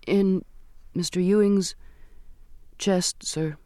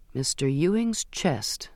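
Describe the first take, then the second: First: Halting, higher voice with pauses between words; reluctant answer. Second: Slow, unbroken echo of the words; pondering repetition. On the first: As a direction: let it out haltingly, piece by piece. Girl reluctantly informs on Mister Ewing. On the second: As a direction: repeat it slowly, taking it in. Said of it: "the captain repeated". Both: A narrator's reading.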